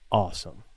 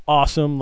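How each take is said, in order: First: Low, soft, grateful mutter; quietly pleased, pitch dropped; sincere thanks. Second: Brisk brush-off at normal volume; dismissive. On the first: Retold or imitated. Worker thanks customer for doing her a solid, low and sincere. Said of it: "But not like, "Awesome," like, "Get the fuck outta here". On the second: Shown as a demonstration. How the worker didn't say it to the customer, dismissive. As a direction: send them away with one word. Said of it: "not like, "Awesome," like, "Get the fuck outta here".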